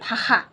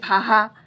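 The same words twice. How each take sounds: First: The middle consonant is a 'kh' sound. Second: The middle consonant is an 'h' sound. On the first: "बहुत लोग क्या बोलेंगे" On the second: "वो लोग ह बोलने लगेंगे"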